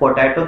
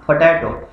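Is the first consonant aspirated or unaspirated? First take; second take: unaspirated; aspirated. First: The first consonant has no puff of air. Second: The first consonant has a strong puff of air. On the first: The speaker calls it wrong. "पोटैटो की जगह" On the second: The speaker calls it right. "फी का sound पी से आ रहा है"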